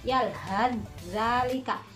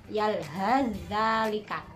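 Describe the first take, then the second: The two takes are said the same way.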